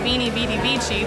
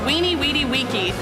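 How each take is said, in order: First: Each word begins with a v sound. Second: Each word begins with a w sound. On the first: This is how some people commonly say it. "Some people say" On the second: This is the classical Latin pronunciation. "which is the correct Latin pronunciation"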